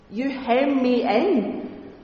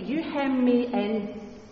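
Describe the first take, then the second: First: It sounds resentful and trapped. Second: It sounds warm and tender.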